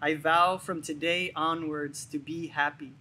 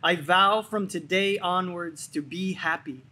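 First: It is said in a normal speaking voice. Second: It is said in a loud, energetic voice. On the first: "with a normal speaking voice" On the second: "with a loud, energetic voice"

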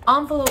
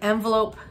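First: The word is said in a fancier-sounding way. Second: The word is said in a plainer-sounding way. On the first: It comes across as more refined. "Envelope sounds a little bit more like fancy" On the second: It comes across as more ordinary. "envelope sounds a little bit more like garage versus garage"

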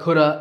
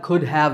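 First: The words blend into one reduced form. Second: Both words are said fully and separately.

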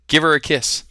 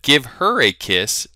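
First: The h in her is dropped and linked. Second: The h in her is clearly pronounced. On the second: "Instead of"

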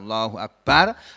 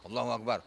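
First: The phrase is said slowly and calmly. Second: The phrase is said quickly and clipped. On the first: The prayer is done with proper calm. The speaker calls it right. "Padahal kita sujud kan pelan-pelan" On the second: The prayer is being rushed. The speaker calls it wrong. "Jangan cepat-cepat sujud kayak sholat kok"

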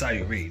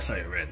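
First: The name ends without an n sound. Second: The name ends with an n sound. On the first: The speaker calls it right. "It's Sayurin" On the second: The speaker calls it wrong. "not Sayurin. There's no N"

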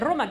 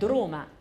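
First: The word begins directly with the r sound. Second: A d sound is added before the r. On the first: The speaker calls it right. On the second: The speaker calls it wrong.

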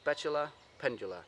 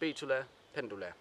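First: It is pronounced in an English way. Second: It is pronounced in a Danish way.

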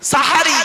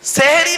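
First: The first syllable has an a vowel. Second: The first syllable has an e vowel. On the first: The meal eaten before dawn. The speaker calls it right. "সিনে জবর দিলে সাহারুন মানে হলো রাতের শেষ অংশের খাবার" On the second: A word relating to magic. The speaker calls it wrong. "সেহরি নয়"

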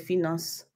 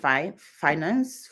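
First: The word is pronounced with French sounds. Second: The word is pronounced with English sounds. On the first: "et français, hein, c'est finance" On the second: "anglais, hein, c'est finance"

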